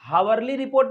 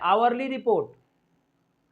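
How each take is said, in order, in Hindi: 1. वाक्यांश की शुरुआत में "h" ध्वनि है। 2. वाक्यांश की शुरुआत में स्वर ध्वनि है। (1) "हावरली रिपोर्ट नहीं होता है" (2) "एच को साइलेंट करना है"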